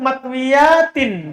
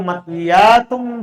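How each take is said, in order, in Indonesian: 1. Kata itu berakhir dengan bunyi tin. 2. Kata itu berakhir dengan bunyi tun. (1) "dibaca tin" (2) "Kan dibaca tun"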